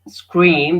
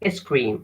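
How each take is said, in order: First: It starts directly with the s sound. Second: An extra vowel is added before the s. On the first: The speaker calls it right. "instead of saying uh, scream" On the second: The speaker calls it wrong. "avoid adding an extra vowel at the beginning"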